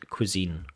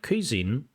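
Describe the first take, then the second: First: The stress is on the last syllable. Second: The stress is on the first syllable. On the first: The speaker calls it right. "the stress is on the last syllable" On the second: The speaker calls it wrong. "Not cuisine"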